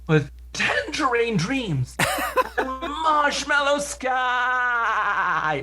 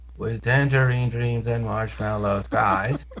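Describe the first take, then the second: First: The words are spoken in a surprised tone. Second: The words are spoken in a matter-of-fact tone. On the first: "this way of speaking that he's surprised" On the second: "the opposite of what Hasselhoff does"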